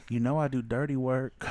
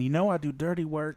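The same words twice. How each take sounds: First: Low sultry voice. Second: Low sultry "You know I do dirty work" with a breath at the end; husky come-on, breathe out at the end; sultry line ending in a breath. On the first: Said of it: "she looks at me and she goes". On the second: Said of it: "she even hit that breath at the end". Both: Retold or imitated.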